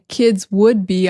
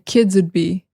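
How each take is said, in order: First: The word would is said in full. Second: The beginning of would is cut off. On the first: "instead of saying" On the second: "we cut off the beginning"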